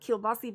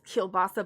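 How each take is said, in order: First: The word ends in an 'ee' sound. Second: The word ends in an 'ah' sound. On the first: This is how the local community says it. "but we call it kielbasi" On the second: This is how other people say it. "they say it's kielbasa"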